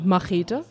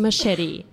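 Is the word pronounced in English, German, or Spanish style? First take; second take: German; English. First: It is pronounced the German way. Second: It is pronounced the English way.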